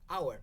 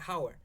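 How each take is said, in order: First: The word sounds like 'our', with silent h. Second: The word is said to rhyme with 'four'. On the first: The speaker calls it right. "Why we pronounce it hour" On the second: The speaker calls it wrong. "but not hour"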